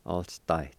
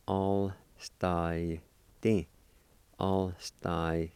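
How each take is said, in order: First: Said in the usual way. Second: "All sty" drawn out with gaps; slow syllable-by-syllable. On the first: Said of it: "say 'em a little bit faster". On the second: Shown as a demonstration. Teacher showing how it sounds, slow syllable-by-syllable. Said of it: "sound something like this".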